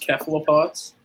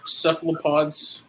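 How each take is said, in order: First: "cephalopods" with a hard K, as "kephalopods"; hard K pronunciation. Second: Said in the usual way. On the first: Shown as a demonstration. Co-host asking Scott about Greek pronunciation, "cephalopods" said with K. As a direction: start "cephalopods" with K instead of S. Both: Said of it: "C's are K's".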